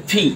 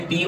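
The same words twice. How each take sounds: First: "ফি" as aspirated ph-ee; British letter P. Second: "পি" with unaspirated p; Bangladeshi letter P. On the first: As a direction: burst of air on the p of "ফি". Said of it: "ওরা বলে ফি". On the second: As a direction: say "পি" without a puff of air. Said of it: "আমরা বলি পি". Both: Shown as a demonstration.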